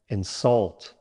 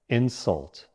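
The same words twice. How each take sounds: First: The stress is on the second syllable. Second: The stress is on the first syllable. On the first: It means to say something rude to someone. "Stress on the second syllable" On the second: It names a rude remark or action. "Stress on the first syllable"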